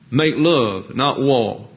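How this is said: The final r in war is dropped.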